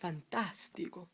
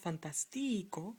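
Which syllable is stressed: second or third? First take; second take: second; third. First: The stress is on the second syllable. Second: The stress is on the third syllable. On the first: The speaker calls it right. "you need an accent on the A because it's not the penultimate syllable" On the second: The speaker calls it wrong. "It's not fantastico"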